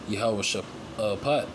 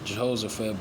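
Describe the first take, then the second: First: The name begins with a 'Yahweh' sound. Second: The name begins with a 'Jeho' sound. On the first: This is the proper form of the name. The speaker calls it right. "the proper way to say it is Yahweh Shaphat" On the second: This is how the name is written. The speaker calls it wrong. "it's written, it's gonna say Jehoshaphat"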